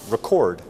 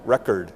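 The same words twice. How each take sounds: First: "record" stressed on the second syllable, re-CORD; "record" with a reduced first vowel and the punch on -cord; verb stress on second syllable. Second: "record" stressed on the first syllable, REC-ord; "record" with a clear short e up front and an unstressed second syllable; noun stress on first syllable. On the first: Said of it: "there's a verb". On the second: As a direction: say "record" as the noun, strong REC, weak ending. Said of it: "and there's a noun". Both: Shown as a demonstration.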